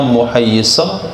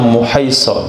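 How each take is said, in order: First: The y sound is doubled, held long. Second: The y sound is single, not held long. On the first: "tasdid tahtaniyah" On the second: "Ada juga membaca"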